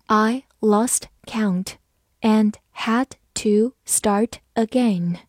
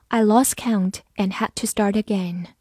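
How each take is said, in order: First: Slow, word-by-word model reading. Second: Said in the usual way. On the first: Shown as a demonstration. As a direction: read it slowly, a gap after each word. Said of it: "好，慢慢来读". (慢慢朗读，逐词停顿) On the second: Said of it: "慢慢来读".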